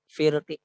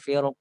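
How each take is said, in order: First: The final consonant carries a faint trace of vowel. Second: The final consonant stops cleanly with a thick sound. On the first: "kalau misalnya kita wakaf dengan raum" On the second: "ketika wakaf dengan dengan sukun firq, maka dia hanya dibaca dengan tafkhim"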